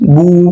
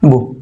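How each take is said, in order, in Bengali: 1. স্বরটা টেনে লম্বা করে বলা হয়। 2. স্বরটা ছোট আর দ্রুত করে বলা হয়। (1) "টান হলে বলতাম" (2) "টান দেবো না"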